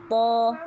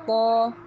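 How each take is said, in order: The two takes are said the same way.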